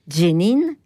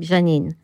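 First: The name begins with a 'dj' sound. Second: The name begins with a soft 'j' sound. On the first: This is the local pronunciation. "la prononciation locale fait Jénine. Vous avez un DJ là qui arrive un peu à l'oreille" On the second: This is the classical pronunciation. "quand on le prononce d'une façon très classique"

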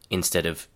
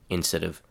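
The two takes are said the same way.

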